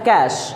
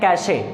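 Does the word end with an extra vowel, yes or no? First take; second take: no; yes. First: The word ends on the 'sh' sound. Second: The word ends with an extra vowel sound. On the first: The speaker calls it right. "ये होता है कैश" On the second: The speaker calls it wrong. "आमतौर पर लोग कहते हैं कैशे"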